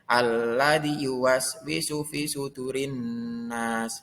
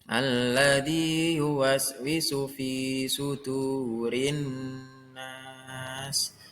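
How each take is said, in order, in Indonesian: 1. Huruf yang ditandai dibaca pendek. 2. Huruf yang ditandai dibaca panjang. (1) "Tidak boleh" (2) "Yang betul"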